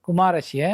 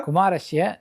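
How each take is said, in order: Both takes have the same delivery.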